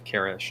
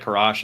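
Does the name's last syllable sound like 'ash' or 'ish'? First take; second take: ish; ash. First: The last syllable sounds like 'ish'. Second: The last syllable sounds like 'ash'. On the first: "and then sometimes I say Karish" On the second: "I say sometimes say Karash"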